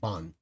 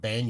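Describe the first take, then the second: First: The vowel sounds like the 'o' in 'bon'. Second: The vowel sounds like the 'a' in 'ban'. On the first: The speaker calls it right. "think of the word Bon from Bonkai" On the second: The speaker calls it wrong. "instead of saying um, ban"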